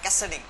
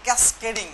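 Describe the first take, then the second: First: No k sound is heard before the -ding ending. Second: A k sound is heard before the -ding ending. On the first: The speaker calls it right. "আসলে উচ্চারণটা" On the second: The speaker calls it wrong. "অনেকে উচ্চারণ করে যে ক্যাসকেডিং, আসলে উচ্চারণটা ক্যাসকেডিং না"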